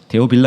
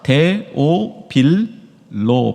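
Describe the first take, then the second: First: The last syllable has an 'a' vowel. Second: The last syllable has an 'o' vowel. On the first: The speaker calls it wrong. "데오빌라가 아닙니다" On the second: The speaker calls it right. "발음 잘하셔야 됩니다"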